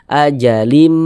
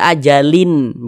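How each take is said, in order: First: The tanwin merges into a nasalized m sound. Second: The tanwin ends in a clear n sound. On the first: The speaker calls it right. "dimasukkan melebur ke huruf mim" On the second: The speaker calls it wrong. "Jangan dibaca ajalin"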